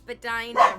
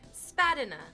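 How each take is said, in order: First: The word rhymes with 'vagina'. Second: The word does not rhyme with 'vagina'. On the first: This is how locals say it. The speaker calls it right. "Rhymes with vagina" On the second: This is how the map app says it. The speaker calls it wrong. "Unless you are using Google Maps, in which case then it's Spadina"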